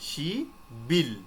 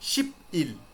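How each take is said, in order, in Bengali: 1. মাঝের ব্যঞ্জনধ্বনিটি b এর মতো উচ্চারিত হয়। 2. মাঝের ব্যঞ্জনধ্বনিটি p এর মতো উচ্চারিত হয়। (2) "নট কিন্তু শিপ ইল, এটা কিন্তু আর হচ্ছে না।"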